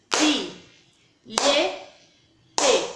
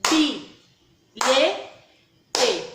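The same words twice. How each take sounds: First: "Bi, lhe, te" sílaba por sílaba, com pausas; sílabas separadas. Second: "Bi, lhe, te" sílaba por sílaba, bem mais alto; sílabas marcadas. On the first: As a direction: separe cada sílaba de "bilhete". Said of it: "vamos pronunciar comigo". (professora separa as sílabas batendo palmas) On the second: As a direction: marque cada sílaba de "bilhete" com força. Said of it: "Ó". (professora repete as sílabas mais alto para a turma) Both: Shown as a demonstration.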